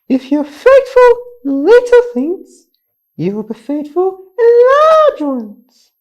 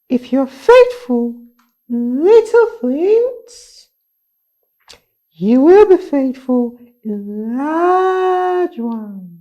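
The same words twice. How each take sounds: First: It is said at a faster pace. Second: It is said at a normal pace.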